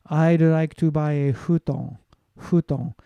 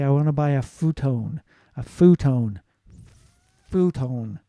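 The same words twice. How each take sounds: First: Slow, "futon" said as "hutɔ" with a breathy h; "futon" as "huton", h in place of f, clipped ending; Japanese-style futon. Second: Futon with a clear English f sound; "futon" said with a crisp f and a long oh; American futon. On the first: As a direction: soften the f of "futon" into a Japanese h sound. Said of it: "futon and huton are different". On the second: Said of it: "You'd say". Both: Shown as a demonstration.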